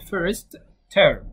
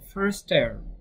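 First: Each word is pronounced separately and fully. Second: The two words are run together as one. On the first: "لو انا هنطقها كل كلمه لوحدها هقول first term" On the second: "الكومن ان انا اقولها على بعضها"

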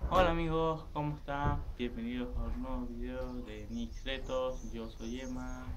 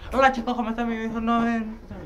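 First: The intro is said slowly. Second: The intro is said quickly.

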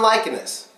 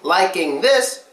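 First: The th blends into the n sound. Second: The th sound is clearly pronounced after -ing. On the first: "we would say" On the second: "Instead of saying liking this"

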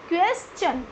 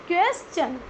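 No difference in how they are said.

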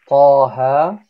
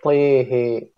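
First: The vowels are open 'a' sounds. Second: The vowels lean toward 'e' sounds. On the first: "instead of saying" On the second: "he say Tehe"

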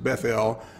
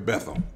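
First: The name gets a fancier, non-American pronunciation. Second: The name gets the plain American pronunciation. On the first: "some have pronounced it Bethel, but I don't want to be fancy like that" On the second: "I'm just going to call it like we call it in America"

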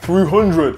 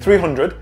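First: It is said in a dramatic, booming put-on voice. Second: It is said in a plain, ordinary speaking voice. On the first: It imitates a battle cry from a film. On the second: It simply states the number.

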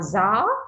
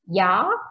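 First: It starts with a northern z sound. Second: It starts with a southern y sound.

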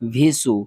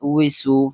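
First: The syllable starts with a v sound. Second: The syllable starts with a w sound. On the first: The speaker calls it wrong. "আমরা অনেকেই পড়ি ভিসু" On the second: The speaker calls it right. "ওয়াউজের উই"

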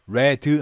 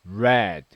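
First: The final d is released with a vowel. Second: The final d is held without a vowel. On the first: The speaker calls it wrong. "red 하지 마시고요" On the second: The speaker calls it right. "이런 느낌입니다. 약간 받침 느낌으로"

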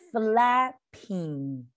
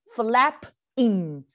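First: The two parts are joined smoothly into one word. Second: The two parts are said separately with a break. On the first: The speaker calls it right. "我们把它试着连在一块。" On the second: The speaker calls it wrong. "这两个字是分开的。 Oh, that would be weird"

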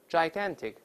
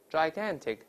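Both takes have the same delivery.

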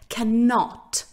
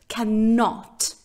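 First: The stress is on the second syllable. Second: The stress is on the second syllable.

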